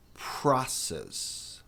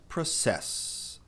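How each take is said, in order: First: "process" as PRA-cess with a puff after P; slow breathy burst on P in "process", first syllable stressed; aspirated P. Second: "process" stressed on the last syllable, pro-CESS; Portuguese-like "process" with weight on CESS; wrong pronunciation. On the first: Teacher models for learners, exaggerated airy P and open A. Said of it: "tem um F depois do P". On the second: Teacher shows learners what to avoid, stress on final syllable. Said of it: "a pronúncia não é process". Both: Shown as a demonstration.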